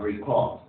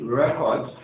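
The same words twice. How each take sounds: First: "record" as a verb, ri-KORD; second-syllable stress. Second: "record" as a noun, REK-ord; first-syllable stress. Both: Shown as a demonstration. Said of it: "You can notice the stress change".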